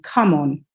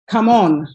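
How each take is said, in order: First: The stress is on the first syllable. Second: The stress is on the second syllable. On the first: The speaker calls it wrong. "rather than come on" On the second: The speaker calls it right. "we would put that stress on the second syllable"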